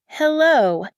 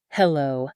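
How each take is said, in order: First: Loud, high-pitched hello; calling down line. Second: Low-pitched, contained hello; reserved phone greeting. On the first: Waiting caller to a silent listener, calling out loud and high. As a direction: call out to check someone is there. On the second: Narrator answers an unknown number at her desk, low and reserved. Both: A narrator's reading.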